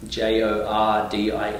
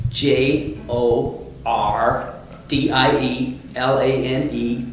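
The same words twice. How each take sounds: First: Said in the usual way. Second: Slow, hammed-up American accent spelling; bad American accent. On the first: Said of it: "I've gotta get my R's right in America". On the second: Shown as a demonstration. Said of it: "that's a pretty bad American accent".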